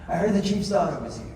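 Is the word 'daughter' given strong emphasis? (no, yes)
no. The word daughter carries no special emphasis. The speaker calls it wrong.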